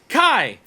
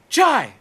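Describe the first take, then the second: First: The name begins with a 'k' sound. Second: The name begins with a 'ch' sound. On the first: The speaker calls it right. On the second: The speaker calls it wrong.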